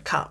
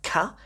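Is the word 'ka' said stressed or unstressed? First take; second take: unstressed; stressed. First: The word is said without stress. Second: The word is said with stress. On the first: It means 'the' at the end of a word. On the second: It is the preposition.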